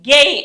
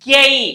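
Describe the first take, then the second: The two takes are said the same way.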